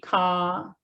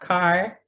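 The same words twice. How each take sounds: First: The final r is dropped. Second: The final r is clearly sounded. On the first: "standard British English is R-less. So they say car" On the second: "and not car"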